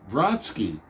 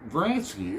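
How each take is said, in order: First: The name is said in its standard form. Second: The name is said with an altered vowel. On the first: The speaker calls it right. "maybe you don't say Vronsky" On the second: The speaker calls it wrong. "maybe you say Vransky"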